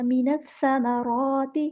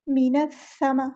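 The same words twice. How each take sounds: First: मीनस समाराती slow, full and drawn out; correct tajweed reading. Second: मीनस समा clipped short, cut off early; the wrong way: मीनस समा broken off; wrong reading. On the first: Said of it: "इस तरह पढ़ना". (सही तरीके से धीरे पढ़ना) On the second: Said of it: "मीनस समा नहीं आएगा". (गलत तरीका, अधूरा पढ़ना) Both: Shown as a demonstration.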